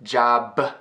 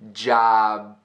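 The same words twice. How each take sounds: First: The final b is released with a puff. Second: The final b is held without release. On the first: The speaker calls it wrong. "it's not job" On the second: The speaker calls it right. "Almost pronouncing it, but not letting that puff of air go"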